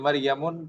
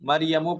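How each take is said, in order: First: The word ends in an added n sound. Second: The word ends in a plain u vowel. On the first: The speaker calls it wrong. "मरियमुन पढ़ना सही नहीं होगा" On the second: The speaker calls it right. "मरियमू पढ़ेंगे"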